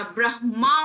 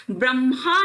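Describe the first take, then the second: First: ब्रह्मा said "brah-maa"; h before m in ब्रह्मा; "hma" ending on ब्रह्मा; correct consonant order. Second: ब्रह्मा said "bram-haa"; m before h in ब्रह्मा; "mha" ending on ब्रह्मा; wrong consonant order. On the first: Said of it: "ब्रह्मा होता है". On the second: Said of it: "ब्रह्मा नहीं होता". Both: Shown as a demonstration.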